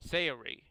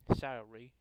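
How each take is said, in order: First: "Sayori" as SAY-uh-ree, falling at the end; corrected name reading. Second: "Sayori" squeezed to SA-ree, ending upward; tentative name reading. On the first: Reader fixing a character's name, "Sayori" as a firm SAY-uh-ree. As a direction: say "Sayori" firmly with a clear SAY at the front. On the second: Reader trying a character's name, "Sayori" as an unsure SA-ree. First try at a name, then redone. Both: Real, not acted.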